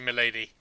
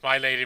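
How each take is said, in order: First: The word 'my' is reduced to a short 'mi'. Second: The word 'my' is said fully, rhyming with 'eye'. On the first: "not milady. There is a difference" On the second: "I mean like she gets referred to as my lady"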